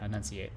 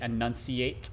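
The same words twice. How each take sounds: First: The hard sounds are rolled together loosely. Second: Every sound of the word is pronounced clearly. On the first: "you kind of roll most of the hard sounds together" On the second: "If you say it properly, you would say"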